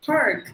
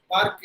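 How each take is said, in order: First: "park" with smooth untapped R, higher, falling; American R. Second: "park" with the R tapped before the k; Indian-English R. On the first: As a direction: curl the R American-style in "park". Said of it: "So that's how they would say". ("park" America R ஒலியுடன்) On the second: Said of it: "That is how we pronounce the letter R". ("park" Tamil ர் ஒலியுடன்) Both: Shown as a demonstration.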